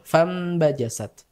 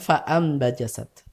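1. Langsung tersambung tanpa hentian glotis. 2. Hentian glotis memutus kata setelah 'fa'. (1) "itu dilewati aja langsung ke nun fambajasat" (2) "Bukan fa'ambajasat"

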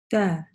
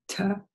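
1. Звук t произносится со слабым выдохом. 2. Звук t произносится с сильным выдохом. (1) "то есть хамс легкий" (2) "иногда делают ошибку"

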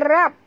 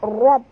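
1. Bunyi r ringan dan tipis. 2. Bunyi r berat dan tebal. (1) "Jangan baca rab" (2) "Baca rab tebal"

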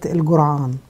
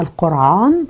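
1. يُنطق الاسم بلهجة الصعيد. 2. يُنطق الاسم بالفصحى. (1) "بتوع سوهاج وبتوع الصعيد بيقولوها قرية الجرعان" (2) "زي ما قلت بالفصحى القرعان"

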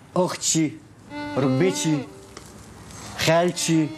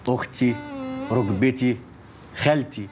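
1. الكلمات بتخلص بصوت "شين" زيادة. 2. الكلمات بتخلص من غير أي صوت "شين" زيادة. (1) "وتبطلي تحشي حرف الشين اللي في كلامك ده" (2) "تقولي"

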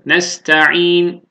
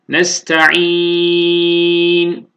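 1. Sondaki n'den önceki ünlü kısa okunur. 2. Sondaki n'den önceki ünlü uzun okunur. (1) "Kasır alalım"

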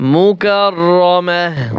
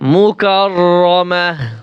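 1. শব্দটি নরম 'h' ধ্বনি দিয়ে শেষ হয়। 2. শব্দটি নরম 'h' ধ্বনি দিয়ে শেষ হয়।

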